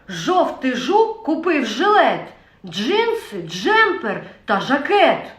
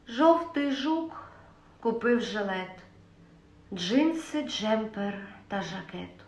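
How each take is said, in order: First: It is said in an angry voice. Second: It is said in a sad voice. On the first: "перша емоція – це гнів" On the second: "Наступна емоція – сум"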